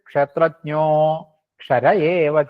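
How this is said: A break splits the first word after kshetrajno. The speaker calls it wrong. "ഉച്ചരിക്കരുത്"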